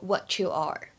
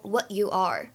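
First: The t and y blend into a ch sound. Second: The t and y stay as separate sounds. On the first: "末尾这里的what 和you 可以做一个音的同化的处理，就会变成" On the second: "大家如果读成what you are, What you are 也是没有问题的"

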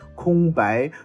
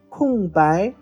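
First: The first syllable has a high level tone. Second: The first syllable has a falling tone. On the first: The speaker calls it wrong. "可千万不要念成空白" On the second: The speaker calls it right. "是闲着没有被利用的，比如说空白"

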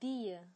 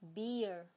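First: It is British, with no final r. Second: It is American, with a strong final r.

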